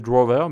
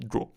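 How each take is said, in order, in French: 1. Le mot se termine par une syllabe 'er' audible. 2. Le mot se termine sans syllabe 'er'. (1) "j'ai envie de le prononcer drawer" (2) "mais ça se dit draw"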